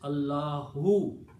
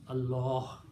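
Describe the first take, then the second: First: The word ends with a final 'u' vowel. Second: The word ends without a final vowel. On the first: The word continues into what follows. "full word is Allahu" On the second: The speaker stops after this word. "When we stop, we pronounce Allah"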